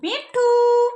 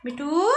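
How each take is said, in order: First: Loud, high, held-out name; coaxing a parrot. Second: Said in the usual way. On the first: Shown as a demonstration. Models name for parrot to repeat. (तोते के लिए ऊँची, ज़ोरदार पुकार)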